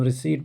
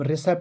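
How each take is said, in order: First: Long ee vowel with no p sound. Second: Short e vowel with a p before the t. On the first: The speaker calls it right. "अब हम रिसीट पढ़ेंगे" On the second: The speaker calls it wrong. "अब हम रिसेप्ट नहीं पढ़ेंगे"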